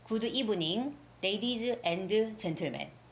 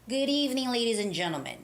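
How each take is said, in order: First: Each word is said separately, without linking. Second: The words run together as one unit. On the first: The speaker calls it wrong. "you're separating each word, sound of each word" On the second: The speaker calls it right. "as if I'm saying one word"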